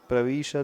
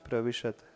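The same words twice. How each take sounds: First: The vowel after v is long. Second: The vowel after v is short. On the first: The speaker calls it wrong. "प्रविशद नहीं" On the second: The speaker calls it right. "वी में ह्रस्व इकार है।"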